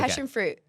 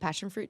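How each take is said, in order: First: It is said with a New Zealand accent. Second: It is said without a New Zealand accent. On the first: This is how the speaker's family says it. "that's like how my parents say it" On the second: This is not the speaker's usual way of saying it. "I don't say passion fruit"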